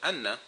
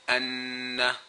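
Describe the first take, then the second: First: The n sound is short, one beat. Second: The n sound is held long, two beats. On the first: This is ordinary reading outside recitation. "normally we just pronounce it anna if we're not reading Quran" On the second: This is recitation with the required nasal hold. "See how I actually made it stay for a longer time? I gave it two harakat"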